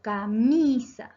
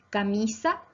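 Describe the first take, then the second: First: "camisa" slow, with a long stressed "mi"; teacher exaggerating the stressed "mi" of "camisa"; stress on penultimate syllable. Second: Said in the usual way. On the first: Shown as a demonstration. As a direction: stretch and punch the "mi" in "camisa". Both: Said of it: "se acentúan en la penúltima sílaba".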